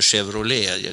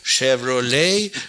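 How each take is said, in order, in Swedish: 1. Varumärkesnamnet har ett svenskt uttal. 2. Varumärkesnamnet har ett amerikanskt uttal. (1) "Men fortfarande så säger jag kanske Chevrolet. Jag är lite för svenska där" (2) "nu ska ni lära er boys over there att uttala Chevrolet riktigt. Det heter Chevrolet"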